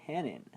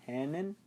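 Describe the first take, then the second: First: Said in the usual way. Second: "Hannon" with a rising question tune. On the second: Real, not acted. Reviewer unsure of a character's surname, rising questioning "Hannon". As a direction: lift the end of "Hannon", unsure.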